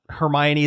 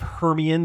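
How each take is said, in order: First: The name is pronounced the standard way. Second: The name is pronounced as misread from print. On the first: The speaker calls it right. "the correct way of saying it" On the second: The speaker calls it wrong. "the way that I thought it was pronounced"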